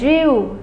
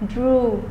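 First: The vowel is not a pure long u. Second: The vowel is a pure long u. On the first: The speaker calls it wrong. "mình sẽ không đọc là drew" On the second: The speaker calls it right. "Nó là âm u dài"

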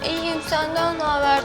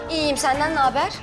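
First: It is said drawn out with pursed lips. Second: It is said in a plain, ordinary voice. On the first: "niye fok balığı gibi konuşuyorsun?" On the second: "Ya öyle değil"

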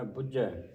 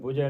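First: The middle consonant is held and doubled. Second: The middle consonant is short and single. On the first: The speaker calls it right. "ਅਦਕ ਲਾ ਕੇ ਉਚਾਰਨ ਕਰਨਾ" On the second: The speaker calls it wrong. "ਇਹਨੂੰ ਬੁੱਝੈ ਨਹੀਂ ਬੋਲਣਾ"

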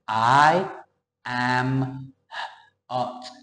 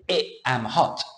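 First: The word 'I' is said with the long vowel as in 'eye'. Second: The word 'I' is said with the short vowel as in 'pin'. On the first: The speaker calls it right. "When you see it written alone as a capital, you say" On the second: The speaker calls it wrong. "Doesn't sound right"

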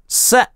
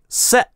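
The two takes are said the same way.

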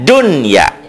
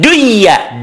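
First: The n is pronounced clearly before the y. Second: The n is merged into the following y. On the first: The speaker calls it right. "harus dibaca jelas" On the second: The speaker calls it wrong. "Jangan dunia"

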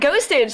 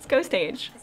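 First: It is blended into one word, like hostage. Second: It is said as two words, ghost and age. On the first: The speaker calls it wrong. "I read it as ghostage" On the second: The speaker calls it right. "It's ghost age"

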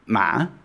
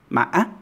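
First: The tone is low and constricted. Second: The tone breaks with a glottal stop. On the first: "Low constricted tone" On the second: "Hiccup tone, because you have that little glottal stop in between"

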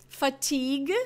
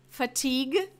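No difference in how they are said.

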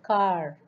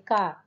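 First: The final R sound is clearly pronounced. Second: The final R sound is silent. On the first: "in American English, the R is pronounced with a rolling effect" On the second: "usually the R in the ending position is not pronounced in British English, they say car"

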